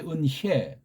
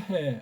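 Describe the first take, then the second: First: The second syllable is a glided 'hye' sound. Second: The second syllable is a plain 'hae' sound. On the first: The speaker calls it right. "은혜라고 해야 돼" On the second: The speaker calls it wrong. "해로 발음해, 해. ... 바람 빠진 소리예요"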